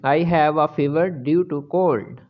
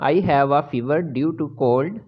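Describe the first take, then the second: No difference in how they are said.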